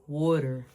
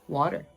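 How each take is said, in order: First: It is said in a Philadelphia accent. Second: It is said in a standard accent.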